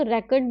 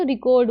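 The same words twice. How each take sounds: First: "रेकॉर्ड" stressed on the first syllable, REK-erd; noun stress. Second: "रिकॉर्ड" stressed on the second syllable, ri-KORD; light start on "रिकॉर्ड", long stressed second syllable; verb stress. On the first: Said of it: "अगर noun में बोलेंगे". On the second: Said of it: "verb में बोलेंगे". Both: Shown as a demonstration.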